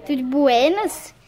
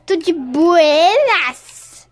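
First: Said in the usual way. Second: "Tudo de buenas?" stretched slow and louder; drawn-out cool greeting. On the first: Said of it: "repeat of greeting". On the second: Pretend. Greeting the kids at the square, slow, loud and cool. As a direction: lay on the laid-back swagger. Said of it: "greets children slowly".

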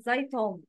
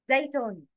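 First: زيتون with a dark t, zaytom; wrong heavy ta. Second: زيتون with a thin t, zeytoon; light ta. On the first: Teacher shows learners the mistake, wrongly heavy t. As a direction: thicken the t and vowels of زيتون. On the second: Teacher models the word for learners, light ta. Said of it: "But words with ta". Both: Shown as a demonstration.

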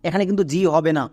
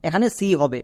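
First: জি starting with a J sound; জি opening with j; wrong sound demo. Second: সি starting with an S sound; সি opening with s, in place of j; correct sound demo. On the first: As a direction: show the mistaken জি as "jee". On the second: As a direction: model সি as "see". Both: Shown as a demonstration.

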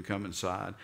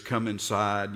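First: Pleading. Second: Said in the usual way. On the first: Retold or imitated. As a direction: coax the son to come in. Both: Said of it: "he pleaded with him".

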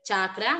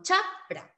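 First: CHAKRA as CHA-KRA, with KR starting the second syllable; slow CHA-KRA; wrong syllable split. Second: CHAKRA as CHAK ... RA, slow, K closing the first syllable; slow CHAK, gap, RA; correct syllable split. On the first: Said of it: "no puede haber chakra". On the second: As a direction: stop on CHAK, pause, then RA. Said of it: "sino chakra". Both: Shown as a demonstration.

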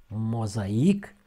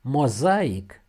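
First: Mozaic ending on stressed IC. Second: Mozaic with ZA hit loud, IC light; stress on A. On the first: Teacher gives the other word, mozaic stressed on I. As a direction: lean on the final I of mozaic. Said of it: "cu accent pe I". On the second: Teacher names the cult, mozaic stressed on A. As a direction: punch the A in Mozaic. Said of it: "cu accentul pe A". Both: Shown as a demonstration.

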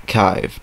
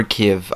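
First: Kyiv as one syllable, KYVE; alternative pronunciation. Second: Kyiv as one syllable, KIV; alternative pronunciation. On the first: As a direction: say Kyiv to rhyme with five. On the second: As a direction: say Kyiv to rhyme with give. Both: Shown as a demonstration. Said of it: "I don't know how you pronounce it".

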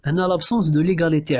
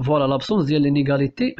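First: ليغاليتي said as l'égalité, without the in-; teacher fixes it and says دو ليغاليتي; corrected l'égalité. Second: لينيغاليتي said as l'inégalité, the slip; teacher slips and says لينيغاليتي before correcting it; misspoken l'inégalité. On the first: Teacher correcting the slip for students, saying ليغاليتي. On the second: Teacher reading the phrase to students, first with the slip لينيغاليتي. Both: Shown as a demonstration. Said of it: "هنا ماشي لابسونس".

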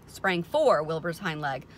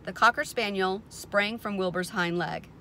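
First: "for" stressed as a correction; emphatic, lengthened "for". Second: Said in the usual way. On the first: A narrator's reading. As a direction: lean on "for" to fix the misreading. Corrects misread word with emphasis.

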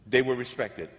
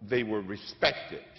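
First: Louder, stress on They; They were respected, pushed out louder; emphatic repeat. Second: Slowed right down, letting each word land; deliberate and slow, to sink in; they were respected, drawn out slowly; slow, weighty delivery. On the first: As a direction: hammer home the repeat with a punch on They. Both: Shown as a demonstration.

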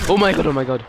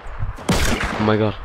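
First: Quick startled outburst, a little higher. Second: Slow, breathy whispered oh my god. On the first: Player spotting an enemy, startled outburst. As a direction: blurt it as the enemy appears. Sudden fright in the game. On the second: Player hiding from an enemy, slow scared whisper. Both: Real, not acted.

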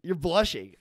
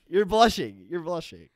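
First: Playful sing-song tease; higher, louder teasing jab. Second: Higher, louder mocking tease; loud teasing. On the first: Acted. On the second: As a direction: crow it at her, louder. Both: Teasing her about blushing.

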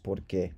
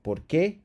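First: Said in the usual way. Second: "por qué" with qué stressed and rising; teacher shows the wrong stress on qué. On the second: Shown as a demonstration. Teacher contrasts stresses for students, marked stress on qué. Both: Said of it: "there's no emphasis here".

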